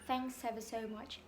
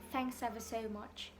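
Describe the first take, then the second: No difference in how they are said.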